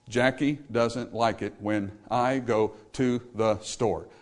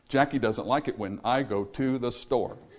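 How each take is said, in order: First: The sentence is spread evenly over nine beats. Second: The sentence is grouped tightly into five beats. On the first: "That's 9 beats" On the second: "those same words flow over 5 beats"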